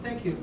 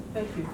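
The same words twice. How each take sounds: The two takes are said the same way.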